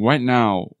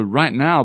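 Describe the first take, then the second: First: It begins with a W sound instead of R. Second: It begins with a clear English R sound.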